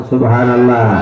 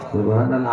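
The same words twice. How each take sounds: First: Loud praise call. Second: Low, softly mumbled imitation; soft, half-hearted response. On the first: Shown as a demonstration. Preacher urges the congregation to answer louder, loud call. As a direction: call it out strongly to rouse the crowd. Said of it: "জোরে কোন". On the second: Preacher mimics the congregation's weak subhanallah, softly. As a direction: say it quietly, as a timid congregation would. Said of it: "আস্তে বলতেছেন".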